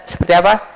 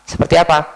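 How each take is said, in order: The two takes are said the same way.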